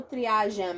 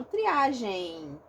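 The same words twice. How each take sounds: First: Triagem with the final M said as written; spelled M. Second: Triagem with the ending said as -gei, no M; diphthong ending. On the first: Teacher naming the spelling-based triagem she does not use. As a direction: pronounce the M at the end of triagem. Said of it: "eu não pronuncio ele". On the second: Teacher giving her own pronunciation of triagem to students. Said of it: "Eu ditongo". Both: Shown as a demonstration.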